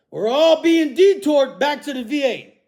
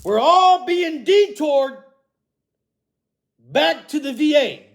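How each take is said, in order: First: Said in the usual way. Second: "We're all being detoured back to the V A" said slowly, with stress on "all"; slow, emphatic statement. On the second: Shown as a demonstration. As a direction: spell out every word, leaning hard on "all". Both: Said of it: "Here we go".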